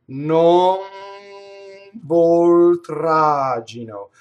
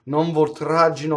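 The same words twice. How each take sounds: First: It is said slowly, each sound held. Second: It is said quickly, at normal speaking speed.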